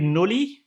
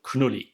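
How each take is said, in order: First: The word starts with a plain n sound. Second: The word starts with a k before n. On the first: This is the likely English reading. "I guess it would be Nulli" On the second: This is the German-style reading. "but I'm German, so I'm gonna call it Knulli"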